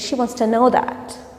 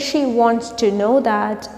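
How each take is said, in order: First: Wants to is run together in reduced form. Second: Wants to is said fully and separately. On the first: "we can say she wants to know that" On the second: "Instead of saying she wants to know that"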